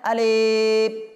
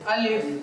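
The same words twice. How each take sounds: First: The vowel is stretched out long. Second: The vowel is kept short. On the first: The speaker calls it wrong. "এভাবেও এটা পড়া কি নয়, সঠিক নয়।" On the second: The speaker calls it right. "এটা টানা যাবে না, দীর্ঘ করা যাবে না।"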